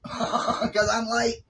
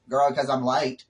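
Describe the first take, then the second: First: High, slow laughing drawl of the words; laughing singsong. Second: Said in the usual way. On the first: Acted. Vlogger laughing to viewers about always being late, high and slow. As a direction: sing it out slowly through a laugh. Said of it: "Girl, 'cause I'm late". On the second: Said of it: "'Cause I'm late".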